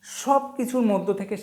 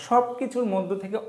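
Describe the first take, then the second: No difference in how they are said.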